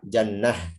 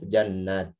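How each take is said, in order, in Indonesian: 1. Kata ini berakhir dengan bunyi h. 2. Kata ini berakhir dengan bunyi t. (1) "maka waqafnya dengan ha" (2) "jannat tidak dengan ha"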